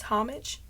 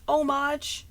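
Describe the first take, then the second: First: "homage" as HOM-ij; English-style homage. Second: "homage" as oh-MAHZH; French-style homage. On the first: Questioning the other context, "homage" as HOM-ij. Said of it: "in some other contexts". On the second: Wondering about contexts, "homage" as oh-MAHZH. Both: Shown as a demonstration.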